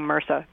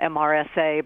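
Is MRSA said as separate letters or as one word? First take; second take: one word; letters. First: It is pronounced as a single word. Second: It is spelled out letter by letter. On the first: This is how laypeople say it. "civilians tend to pronounce it as though it's a word" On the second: This is how researchers say it. "scientists and researchers tend to pronounce the acronym MRSA"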